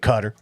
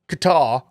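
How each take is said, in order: First: It is said closer to the native Arabic pronunciation. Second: It is said with a British-style pronunciation. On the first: The speaker sounds more authentic. "you want to be like a little bit more legit, you say Qatar" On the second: The speaker sounds like an old colonial outsider. "If you're like a British colonialist, then you can say Qatar"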